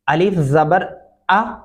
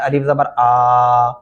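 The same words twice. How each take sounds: First: The final vowel is said at normal length. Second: The final vowel is stretched out long. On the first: The speaker calls it right. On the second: The speaker calls it wrong.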